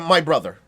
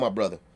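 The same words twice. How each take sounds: First: It sounds forced and put-on. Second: It sounds relaxed and natural. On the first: An outsider is faking the speech style. The speaker calls it wrong. "We don't speak like that" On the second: It is the speech style as really used. The speaker calls it right. "it's a way we say that shit"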